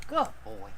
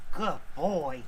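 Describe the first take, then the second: First: Pet praise. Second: Said in the usual way. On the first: Real, not acted. Owner praising his other dog, high cooing voice.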